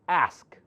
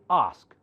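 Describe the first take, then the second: First: The word is said in an American accent. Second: The word is said in a British accent. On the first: "Americans call this one as ask" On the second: "British call it ask"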